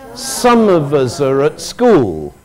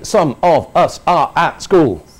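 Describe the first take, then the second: First: The small words are reduced to weak schwas. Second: Every small word keeps its full vowel. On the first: The speaker calls it right. "The other sounds are all uh" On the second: The speaker calls it wrong. "we don't say"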